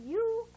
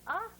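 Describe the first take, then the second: First: U drawn out as "yoo"; long U. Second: "uh" as in "cup"; brief, open "uh"; short U. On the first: Teacher drilling pupils on long U. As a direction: hold U like the letter name. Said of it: "long sound is". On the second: Teacher drilling pupils on short uh. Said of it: "Short sound is". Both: Shown as a demonstration.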